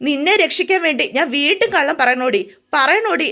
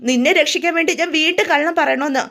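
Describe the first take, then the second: First: Angry retort. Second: Said in the usual way. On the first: A narrator's reading. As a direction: snap back at her in rising anger. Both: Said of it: "ആനന്ദിനങ്ങ് ദേഷ്യം വരിക".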